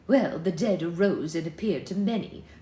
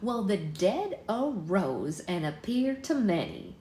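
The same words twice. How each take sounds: First: It is spoken in an English accent. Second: It is spoken in an American Southern accent. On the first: The speaker calls it right. "These people are in England" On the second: The speaker calls it wrong. "That's a southern voice"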